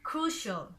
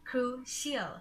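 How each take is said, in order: First: The ending is one short 'shul' syllable. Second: The ending is two syllables, like 'shee-al'. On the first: The speaker calls it right. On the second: The speaker calls it wrong.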